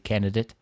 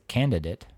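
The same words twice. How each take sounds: First: The first D sound is left out. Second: The first D sound is clearly said. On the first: The speaker calls it wrong. "They just forget that D? ... if you're saying that too fast, I could see candidate" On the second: The speaker calls it right. "But it's a candidate"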